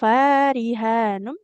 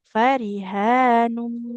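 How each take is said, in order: First: The first vowel is held long. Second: The first vowel is kept short. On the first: The speaker calls it wrong. "tidak farihanum" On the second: The speaker calls it right. "tapi farihanum"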